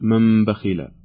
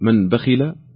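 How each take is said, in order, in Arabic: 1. تُقلب النون ميمًا قبل الباء. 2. تُنطق النون بوضوح قبل الباء. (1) "أو نقلبها ميما فنقول" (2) "هل نظهرها فنقول"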